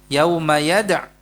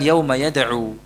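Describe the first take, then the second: First: The last word ends without a final vowel. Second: The last word ends with a long u vowel. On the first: The speaker calls it right. "Kalau berhenti di sini yad'u yada'" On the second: The speaker calls it wrong. "Bukan yauma yad'u"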